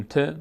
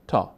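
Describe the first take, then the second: First: ت said "te", with an e vowel; Persian letter name. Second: تا said "taa", with a long open a; Arabic letter name. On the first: Teacher giving learners the Persian name, ت as "te". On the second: Teacher giving learners the Arabic name, تا as "taa". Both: Shown as a demonstration.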